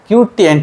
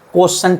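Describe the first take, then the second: First: It is said as three syllables, kyu-ti-ent. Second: It is said as two syllables, ko-shent. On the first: "बहुत सारे teacher इसको क्यूटिएंट भी बोलते हैं" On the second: "बहुत सारे टीचर भाजक को मतलब भागफल को कोशेंट भी बोलते हैं"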